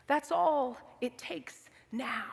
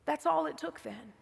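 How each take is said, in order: First: Slow breathy whisper of the echo; whispered slowly. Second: Said in the usual way. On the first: Shown as a demonstration. Repeated line, second take whispered.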